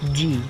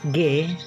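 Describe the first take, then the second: First: The letter starts with a soft 'j' sound. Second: The letter starts with a hard 'g' sound. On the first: This is the English letter name. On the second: This is the Indonesian letter name.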